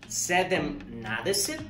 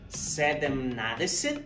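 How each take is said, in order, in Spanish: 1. Se dice cada sílaba de la forma completa. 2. Se dice cada sílaba de la forma completa.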